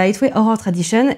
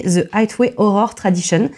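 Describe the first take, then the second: First: Said in the usual way. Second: Deliberate English accent, slower; English-accented Highway Horror Tradition; self-mocking English accent. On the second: Real, not acted. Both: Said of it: "désolée pour mon accent de merde".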